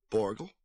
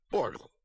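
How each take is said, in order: First: "Borgel" as a puzzled question; questioning repeat. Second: "Borgel" with a falling tune; confirming statement. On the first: Mother repeating the visitor's name, "Borgel" questioningly. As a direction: echo "Borgel" as if querying the name. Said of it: "she was repeating everything Borgel said". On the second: Old man confirming his name, "Borgel" falling. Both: A narrator's reading.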